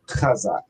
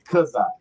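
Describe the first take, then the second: First: The word begins with a raspy throat sound. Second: The word begins with a hard k sound. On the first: This is the actual form of the word. "the actual wording of it would be chazak" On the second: This is how most people at the school say it. "brothers are gonna pronounce it kazak"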